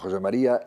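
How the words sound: The name is pronounced with Spanish sounds. "yo utilizo siempre la fonética castellana"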